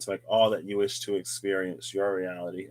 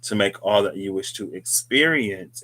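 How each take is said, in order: First: Said in the usual way. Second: "experience" punched and spaced out; stress on experience. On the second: Shown as a demonstration. Host repeating a wish to viewers, emphasis on "experience". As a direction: put deliberate weight on "experience". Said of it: "emphasis on experience".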